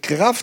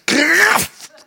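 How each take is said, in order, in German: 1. Das Wort wird schlicht, ganz normal ausgesprochen. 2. Das Wort wird laut und mit starker Kraft ausgesprochen. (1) "nicht über die Kraft" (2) "das Wort Kraft dann ganz kraftvoll ausgesprochen"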